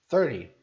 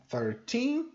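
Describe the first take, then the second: First: Thirty punched loud on the first syllable; loud first-syllable thirty set against thirteen; stress on THIR. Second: Put-on thirteen slow, weight on the final teen; slow teen-stressed thirteen set against thirty. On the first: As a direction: hit the start of thirty hard. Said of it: "o foco tá no começo". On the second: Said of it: "o foco tá no teen". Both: Shown as a demonstration.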